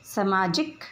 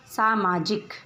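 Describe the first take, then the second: First: सामाजिक with a short first vowel, "समाजिक"; सामाजिक clipped to "समाजिक"; wrong pronunciation. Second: सामाजिक with a long "सा"; सामाजिक said in full as "सामाजिक"; correct pronunciation. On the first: (सामाजिक का अशुद्ध उच्चारण, "समाजिक") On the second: (सामाजिक का शुद्ध उच्चारण) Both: Shown as a demonstration. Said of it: "इन शब्दों का उच्चारण करते हैं".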